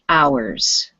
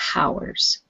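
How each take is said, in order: First: The word begins without an h sound. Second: The word begins with an h sound. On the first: The speaker calls it right. "we do not pronounce the H. So this is hours" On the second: The speaker calls it wrong. "not hours"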